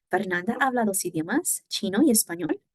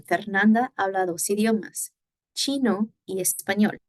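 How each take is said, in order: First: Fernanda habla dos idiomas with a pitch lift at the end; rising question tune; question intonation. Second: Fernanda habla dos idiomas said falling, as a plain statement; falling statement tune; statement intonation. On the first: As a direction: rise on español like a yes-no question. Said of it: "we are going to change the intonation". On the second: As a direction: let the pitch drop at the end of chino y español. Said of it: "we are going to change the intonation from". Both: Shown as a demonstration.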